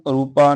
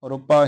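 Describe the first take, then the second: First: The vowel after the r is long. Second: The vowel after the r is short. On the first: The speaker calls it wrong. "ਇਹਨੂੰ ਰੂਪਾ ਨਹੀਂ" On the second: The speaker calls it right. "ਰੂਪਾ ਹੀ ਉਚਾਰਨ ਕਰਨਾ, ਕਿਉਂਕਿ ਰਾਰੇ ਨੂੰ ਔਂਕੜ ਹੈ।"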